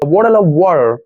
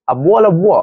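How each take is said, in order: First: It is said with an American accent. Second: It is said with a British accent.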